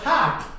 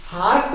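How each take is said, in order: First: हार्ट with a silent r; correct pronunciation. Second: हार्ट with the r sounded; wrong pronunciation. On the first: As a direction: say हार्ट as "haat". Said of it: "ना कि हार्ट". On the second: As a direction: say हार्ट as "haart", clear r. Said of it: "हार्ट भी नहीं कहेंगे". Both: Shown as a demonstration.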